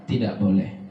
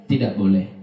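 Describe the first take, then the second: No difference in how they are said.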